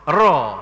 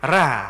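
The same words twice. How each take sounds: First: The r sound is heavy and thick. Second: The r sound is light and thin. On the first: "itulah tebal" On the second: "ra tu nipih"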